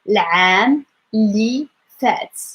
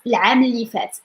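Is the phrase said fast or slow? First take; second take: slow; fast. First: The phrase is spoken very slowly. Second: The phrase is spoken quickly. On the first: "if I say this in like a very slow way" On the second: "So to say it fast"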